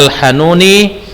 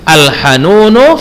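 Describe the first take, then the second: First: The word ends with an 'i' vowel. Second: The word ends with an 'u' vowel. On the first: The speaker calls it wrong. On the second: The speaker calls it right.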